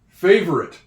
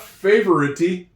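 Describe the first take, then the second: First: The word ends without any extra vowel sound. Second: The word ends with an added vowel sound. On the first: The speaker calls it right. "You don't hear him" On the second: The speaker calls it wrong. "It's not favorite-y"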